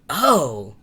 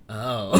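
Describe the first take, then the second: First: It is a big, energetic reaction. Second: It is a low, deflated reaction.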